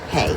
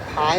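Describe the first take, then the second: First: The vowel rhymes with the word day. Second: The vowel rhymes with the word eye. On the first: "or is it pay, like like to pay for something?" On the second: "Is it pie like a pie"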